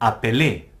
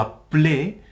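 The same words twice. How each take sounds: First: The first e sounds like a clear é. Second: The first e is a short weak vowel. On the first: The speaker calls it wrong. "et non appeler. Ça ne se dit pas appeler" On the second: The speaker calls it right. "ou vous prononcez E, hein, un E muet"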